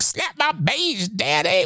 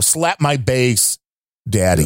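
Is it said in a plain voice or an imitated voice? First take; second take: imitated; plain. First: It imitates the way he said it. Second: It is said in the speaker's plain voice.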